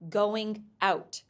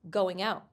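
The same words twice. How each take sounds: First: The two words are said separately, not linked. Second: The final consonant links into the next word. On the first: The speaker calls it wrong. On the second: The speaker calls it right. "For example"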